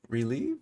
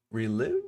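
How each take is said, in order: First: Relieve said as "ree-LEEV", long ee; corrected pronunciation. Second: Quietly testing "relive" with a short i; trial pronunciation. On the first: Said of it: "Oh, if you relieve yourself". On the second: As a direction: relive said as "ree-LIV", short i. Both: Real, not acted.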